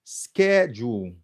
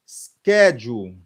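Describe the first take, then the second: First: Said in the usual way. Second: "schedule" slow and loud, first syllable hit; "schedule", skeh stressed hard, then jool. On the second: Shown as a demonstration. Teacher drills the stress for students, slow and loud. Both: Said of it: "Mais stress syllable là".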